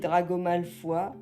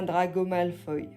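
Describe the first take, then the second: First: The name is said with a French accent. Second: The name is said with an English accent. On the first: The speaker calls it wrong. "en bon accent, euh, en bon accent français" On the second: The speaker calls it right. "c'est bien Drago Malfoy"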